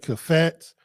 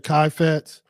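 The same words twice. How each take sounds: First: "kafetz" said as kuh-FETS; variant pronunciation. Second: "kaifetz" said as KAI-fets; alternative pronunciation. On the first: Preacher showing listeners one way to pronounce Hebrew, "kafetz" as kuh-FETS. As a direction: say "kafetz" with a short, reduced first vowel. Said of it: "You might pronounce it". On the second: Preacher showing how some people say it, "kaifetz" as KAI-fets. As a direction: say "kaifetz" with first syllable rhyming with "eye". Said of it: "Some people pronounce it". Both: Shown as a demonstration.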